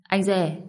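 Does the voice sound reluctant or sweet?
reluctant. It is said grudgingly, in a reluctant tone. The speaker is unwilling to say it. "giọng điệu nghe miễn cưỡng quá"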